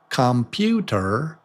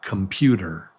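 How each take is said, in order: First: Every vowel is pronounced fully and slowly. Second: The unstressed vowels are reduced to quick schwas. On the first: The speaker calls it wrong. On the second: The speaker calls it right.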